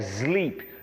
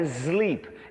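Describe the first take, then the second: First: The word begins with an s sound. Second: The word begins with a z sound. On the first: The speaker calls it right. "é S, som de S" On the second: The speaker calls it wrong. "não é sleep"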